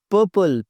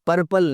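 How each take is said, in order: First: पर्पल with a silent first r, "puh-pul"; correct pronunciation. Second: पर्पल with the r sounded, "par-pal"; mispronunciation. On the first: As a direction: drop the r in पर्पल. (पर्पल में पहला "र" चुप) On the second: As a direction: pronounce the first r in पर्पल. (पर्पल में "र" साफ़ बोलें) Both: Shown as a demonstration. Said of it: "पर्पल नहीं".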